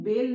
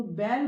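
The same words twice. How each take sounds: First: बेल with a closed "ay" vowel; wrong ए vowel. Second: बैल with an open "ae" vowel; correct ऐ vowel. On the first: Teacher showing the wrong matra, बेल with closed ए. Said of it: "बेल नहीं बोलते हैं". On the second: Teacher contrasting the two matras, बैल with open ऐ. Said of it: "तो बैल बोलते हैं". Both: Shown as a demonstration.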